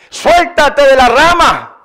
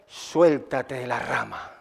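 First: Slow, raised-voice order; God's insistent command. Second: Low, slow, very soft order; God's quiet command. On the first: God testing the climber's belief, insistent command. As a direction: press the order firmly, stretching it out. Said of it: "Si en verdad me crees". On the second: God telling the climber to let go, quiet command. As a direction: drop low and hushed, word by word. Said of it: "Entonces le dice". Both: Retold or imitated.

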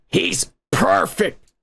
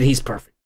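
First: Said in the usual way. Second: A lower, hushed take on the line; deep voice. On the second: Retold or imitated. Retelling his first reaction in a lower voice. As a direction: drop the voice low as if hearing him. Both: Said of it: "I said".

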